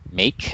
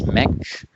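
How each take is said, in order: First: The vowel is a long A sound. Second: The vowel is a short E sound. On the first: The speaker calls it right. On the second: The speaker calls it wrong.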